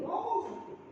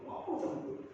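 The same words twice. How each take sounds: First: "Ngomong sama Tuhan" called out high; high exclaim. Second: "Ngomong sama Tuhan" whispered, no voice. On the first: Preacher urging the congregation, "Ngomong" called out high. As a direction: lift "Ngomong" high and bright. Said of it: "repeats phrase, then whispered". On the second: Preacher leans in to the congregation, whispering "Ngomong sama Tuhan". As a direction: breathe "Ngomong sama Tuhan" as a hushed secret. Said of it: "repeated as a whisper". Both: Shown as a demonstration.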